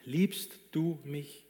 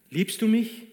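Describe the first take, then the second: First: "du" drawn out, slow and softer, almost intimate; soft stress on du. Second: "mich" pushed higher and louder, pleading; urgent question. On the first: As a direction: ask "Liebst du mich?" very slowly, leaning on "du". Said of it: "Offenbar interessiert ihn bloß das eine". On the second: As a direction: ask "liebst du mich?" hard, landing on "mich". Jesus asks Peter insistently. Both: Acted.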